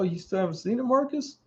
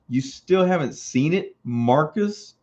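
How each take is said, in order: First: The question sounds innocent and mild. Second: The question sounds accusing, with attitude. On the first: It is just an innocent question. "probably sitting there all innocent" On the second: It shames him for not having seen it. "But I read it as, ... not with the attitude"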